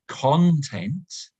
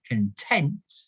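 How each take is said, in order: First: The stress is on the first syllable. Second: The stress is on the second syllable. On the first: What is inside something. "which means what is inside something" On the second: Happy. "if we put the stress on the second syllable"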